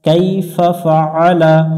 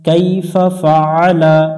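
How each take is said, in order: Both takes have the same delivery.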